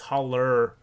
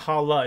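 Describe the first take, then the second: First: The word ends in an 'er' sound. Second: The word ends in an open 'ah' vowel. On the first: The speaker calls it right. "it's holler. ... It's an E R, not an A" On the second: The speaker calls it wrong. "It's not holla"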